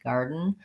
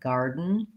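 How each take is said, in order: No difference in how they are said.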